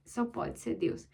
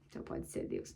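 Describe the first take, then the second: First: Slow awed whisper of Só pode ser Deus; whispered in wonder. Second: Said in the usual way. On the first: Real, not acted. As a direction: breathe it softly in reverent awe.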